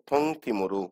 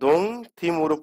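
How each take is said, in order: First: The first word begins with a breathy T sound. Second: The first word begins with a voiced D sound. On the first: The speaker calls it right. "কি পড়বো?" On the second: The speaker calls it wrong. "পড়বো না"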